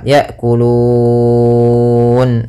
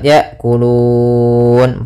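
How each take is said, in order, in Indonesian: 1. Vokal panjang dibaca enam harokat. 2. Vokal panjang dibaca empat harokat. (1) "enam harokat"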